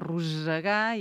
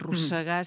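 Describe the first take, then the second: First: The s sound is voiced, like a buzz. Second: The s sound is voiceless, like a hiss. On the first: The speaker calls it right. "És un so d'essa sonora" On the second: The speaker calls it wrong. "no diem rossegar"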